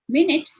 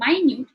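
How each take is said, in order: First: It is said as the word for sixty seconds. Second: It is said as the word meaning very small. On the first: A unit of time. "Minute is for the time" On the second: Something very small or detailed. "minute is something that is a small detail"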